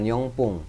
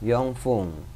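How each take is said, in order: First: It is said with a p sound. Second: It is said with an f sound. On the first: The speaker calls it wrong. "bukan yongpung" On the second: The speaker calls it right. "yongfung bukan yongpung"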